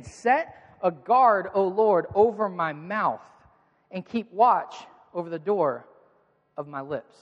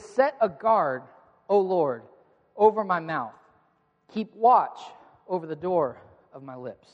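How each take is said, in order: First: Very slow and deliberate, each phrase weighted; drawn-out psalm recitation; slow emphatic scripture reading. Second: Measured psalm recitation; solemn scripture reading. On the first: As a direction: read the verse again, slower and heavier. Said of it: "look at what he says again". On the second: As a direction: read it aloud with the congregation. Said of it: "we read it together". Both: Shown as a demonstration.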